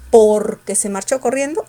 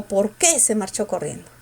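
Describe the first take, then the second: First: "por" hit loud and long, "qué" weak; stress on POR. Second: "qué" punched, "por" kept weak; stress on QUÉ. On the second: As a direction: put the weight on "qué". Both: Shown as a demonstration. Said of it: "En por o en qué".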